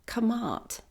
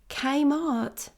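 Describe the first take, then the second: First: The K is a plain sound with a vowel. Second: The K is said as its letter name. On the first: "I'm not sure if that's how it's pronounced" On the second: "You don't just pronounce the letter itself"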